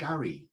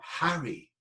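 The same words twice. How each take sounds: First: The word starts without an H sound. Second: The word starts with an H sound. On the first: "I dropped the, the H" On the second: "not Harry"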